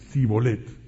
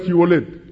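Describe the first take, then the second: First: The word begins with a plain 's' sound. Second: The word begins with an 'sh' sound. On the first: This form gives the speaker away as an outsider. The speaker calls it wrong. "ellos decían" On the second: This is the form the guards asked for. The speaker calls it right. "no podían pronunciar la palabra con la S y con la H"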